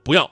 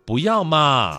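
First: It is said in a cold, firm tone. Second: It is said in a soft, gentle tone.

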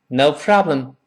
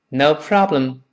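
Both takes have the same delivery.

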